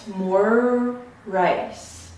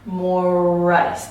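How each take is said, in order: First: The two words are separated by a gap. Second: The two words run together without a break. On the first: "having the two words separated by a clear space" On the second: "It's bleeding into the next sound"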